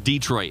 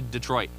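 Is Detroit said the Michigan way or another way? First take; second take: Michigan; other. First: Detroit is said with the local Michigan pronunciation. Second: Detroit is said without the local Michigan pronunciation.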